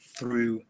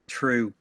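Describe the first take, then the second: First: It starts with a soft th sound. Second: It starts with a hard t sound. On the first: "the way I say" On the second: "the way someone in Ireland might pronounce a th sound"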